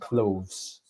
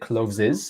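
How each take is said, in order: First: The consonants blend together into one syllable. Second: The consonants are split with an extra vowel. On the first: The speaker calls it right. "it's all one sound" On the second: The speaker calls it wrong. "You said cloves is"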